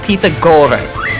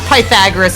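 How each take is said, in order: First: The stress falls on the syllable 'go'. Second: The stress falls on a syllable other than 'go'. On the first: The speaker calls it right. "Like emphasis on the go" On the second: The speaker calls it wrong. "Not Pythagoras at all"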